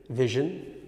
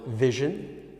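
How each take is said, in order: The two takes are said the same way.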